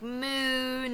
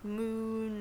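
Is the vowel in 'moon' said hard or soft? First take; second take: hard; soft. First: The vowel is pronounced hard and tense. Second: The vowel is pronounced soft and relaxed. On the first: The speaker calls it wrong. "you were pronouncing, like, moon and the oon things, like, a little too hard" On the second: The speaker calls it right. "When you should be, like, moon"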